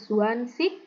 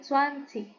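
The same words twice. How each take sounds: First: The word ends with a hard g sound. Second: The word ends with an h-like sound. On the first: The speaker calls it wrong. "Bukan swansih" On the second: The speaker calls it right. "G-nya juga seperti ada H-nya gitu ya"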